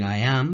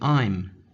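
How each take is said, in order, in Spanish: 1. Las dos palabras se dicen por separado, completas. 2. Las dos palabras se contraen en una sola sílaba. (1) "en vez de decir I am" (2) "decimos directamente I'm"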